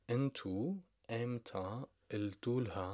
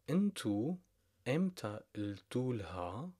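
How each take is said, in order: Both takes have the same delivery.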